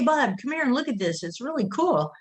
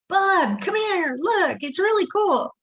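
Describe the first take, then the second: First: It is said at a normal, quieter volume. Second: It is said much louder, almost shouting.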